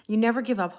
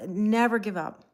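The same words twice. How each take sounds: First: Said in the usual way. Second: Slow, leaning hard on never; never drawn out and punched; stress on never. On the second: Shown as a demonstration. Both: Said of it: "That's, never give up".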